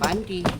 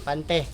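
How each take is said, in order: First: The word ends with an 'ee' vowel. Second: The word ends with an 'eh' vowel. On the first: It names underwear. The speaker calls it wrong. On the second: It names a fishing net. The speaker calls it right.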